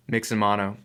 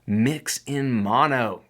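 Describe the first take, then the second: First: Said in the usual way. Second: Each word laid down very slowly, leaning on mono; like a headline you want remembered, very slow; slow emphatic title. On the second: Real, not acted. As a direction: spell out the rule slowly, mono falling. Stating the lesson's title.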